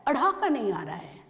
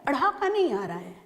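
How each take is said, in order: Both takes have the same delivery.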